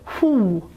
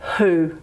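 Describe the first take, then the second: First: The vowel is a high back rounded vowel. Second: The vowel is a rounded central vowel. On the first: The speaker calls it wrong. "we don't say who" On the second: The speaker calls it right. "it's actually a central vowel"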